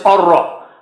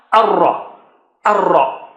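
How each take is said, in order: First: Arra with both a sounds rounded to o; teacher showing the mistake in arra; wrong vowel. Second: Teacher modelling the correct arra. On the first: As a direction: show the rounded arra as the error. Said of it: "Don't say". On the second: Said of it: "Don't make a high sounding". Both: Shown as a demonstration.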